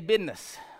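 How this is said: The word is said with a Southern pronunciation. "some of the older Southern gentlemen ... they say business"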